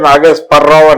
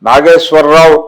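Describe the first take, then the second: First: The cluster is pronounced with a p sound. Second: The cluster is pronounced with a w sound. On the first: "స్వా పలకదు, స్పా పలుకుతుంది" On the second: "నాగేశ్వరరావు అనమంటే"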